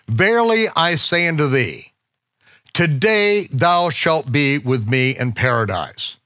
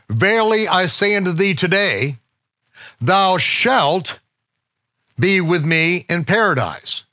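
First: The pause comes before the word 'today'. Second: The pause comes after the word 'today'. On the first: The man will be in paradise that same day. "it is punctuated thusly" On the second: The promise is made today, and paradise may come later. "Other translations say it this way"

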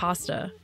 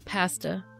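First: The word is said the American way. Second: The word is said the Canadian way. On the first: This is the speaker's usual way. "Instead of" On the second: This is how others say it. "What they say that always gets me?"

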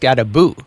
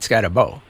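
First: The name is said with Norwegian-style sounds. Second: The name is said with English-style sounds. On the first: The speaker calls it right. "It's Skadabo" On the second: The speaker calls it wrong. "not Skadabo"

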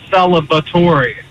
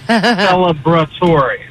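First: The word is said without an R sound. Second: The word is said with an R sound. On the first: The speaker calls it wrong. "it's not celebratory" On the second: The speaker calls it right. "There's an R in there"

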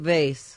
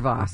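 First: The word is said the plain, everyday way. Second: The word is said the fancy, posh way.

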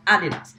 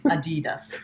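First: The name is said with a German pronunciation. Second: The name is said with an American pronunciation. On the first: "Is German-based. Herzogenaurach. It's called Adidas" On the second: "for your sake"

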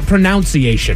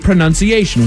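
First: The second syllable sounds like 'noun'. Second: The second syllable sounds like 'nun'. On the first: The speaker calls it wrong. "It is not pronunciation" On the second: The speaker calls it right. "It is exactly pronunciation"

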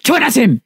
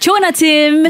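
First: It is shouted in an angry way. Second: It is said in a positive, upbeat way.

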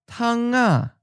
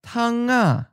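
First: The ng sound carries over into the second syllable. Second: The ng sound carries over into the second syllable.

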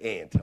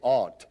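First: The vowel sounds like in 'ant'. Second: The vowel does not sound like in 'ant'. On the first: This is how people in western Pennsylvania say it. "up in western Pennsylvania, we say aunt, like a little aunt at the cross" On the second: This is how people elsewhere say it. "you say aunt"

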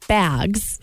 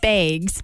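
First: It is said without the Wisconsin accent. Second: It is said with the Wisconsin accent. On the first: This is how the word is deliberately said now. "I say bags" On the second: This is the way that caused confusion elsewhere. "I said it the Wisconsin way"

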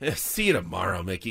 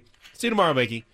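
First: It is said in a snide, sarcastic tone. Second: It is said in a warm, friendly tone. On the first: The speaker is hostile and intends further trouble. "There's a sarcastic, snide sort of" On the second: The speaker is simply saying goodbye kindly. "then there's a"

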